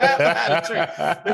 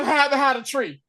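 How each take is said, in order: First: Can barely get the line out for laughing; laughing quote. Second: Plain. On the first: Laughing while retelling the tree-hiding scene. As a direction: say it through laughter, cracking up. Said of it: "That was the funniest thing". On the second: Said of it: "He's like". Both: Retold or imitated.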